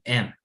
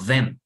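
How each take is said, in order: First: The word is reduced to just its vowel and m. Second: The word is said in full with its th. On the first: "solamente digo la e y la m" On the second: "si no digo them"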